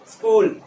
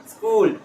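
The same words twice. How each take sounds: First: The opening s is brief and quick. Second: The opening s is brief and quick.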